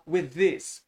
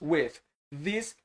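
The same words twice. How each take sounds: First: The two th sounds merge into one. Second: The th sound is pronounced twice, separately. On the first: The speaker calls it right. "você fala with this, Você tira um T H aqui" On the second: The speaker calls it wrong. "Ao invés de você falar o T H duas vezes"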